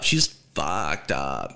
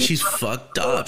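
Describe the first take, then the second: First: FUCKED stretched out, pitched way down; slow, low-pitched stress on FUCKED; drawn-out emphasis. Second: Said in the usual way. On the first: Real, not acted. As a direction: drop low and draw out "fucked up". Repeats it slower for emphasis.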